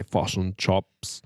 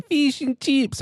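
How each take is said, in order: First: Low-key Kiwi vowels; New Zealand accent. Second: Very high Australian "chips"; mock Australian accent. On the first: Showing how New Zealanders say it, Kiwi accent. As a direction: say "chips" as Kiwi "chops", at an ordinary pitch. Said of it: "And we say". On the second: Showing how Australians say it, exaggerated Australian accent. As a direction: squeeze "Fish and chips" up high, Aussie style. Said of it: "which one did they say". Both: Shown as a demonstration.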